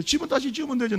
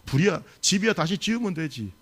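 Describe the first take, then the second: First: Higher, pressing repeat with 집은 stressed and falling; emphatic repeat. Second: Said in the usual way. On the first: Shown as a demonstration. Preacher repeats the line to press the point, emphatic. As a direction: drive 집은 home to the congregation. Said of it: "뭔 말인지 아시겠어요?". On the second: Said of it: "남편들이 살아서 들어오니까".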